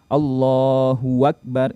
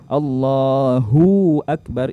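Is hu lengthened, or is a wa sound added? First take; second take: wa added; lengthened. First: A wa syllable is added before akbar. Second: The hu syllable is drawn out long. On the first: "menambahkan waw berharokat" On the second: "itu memanjangkan hu-nya"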